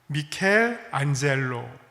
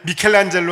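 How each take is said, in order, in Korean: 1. 둘째 부분 앞에서 끊어서 읽어요. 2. 한 단어처럼 매끄럽게 이어서 읽어요. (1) "끊어서 읽으면" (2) "우리 그냥 미켈란젤로 하지만"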